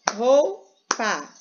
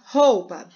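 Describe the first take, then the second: First: "Roupa" slowly split into rou and pa; teacher counting out two syllables in "Roupa", rou, pa. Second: Said in the usual way. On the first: Shown as a demonstration. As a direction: break "Roupa" after rou, with a clear pause. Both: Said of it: "Tem duas sílabas".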